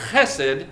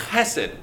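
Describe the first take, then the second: First: Chesed again with a laugh, lower and throaty; laughing repeat. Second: Chesed with a throaty Hebrew ch at the start; Hebrew pronunciation. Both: Shown as a demonstration. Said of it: "You have to say it like that, like a Hebrew".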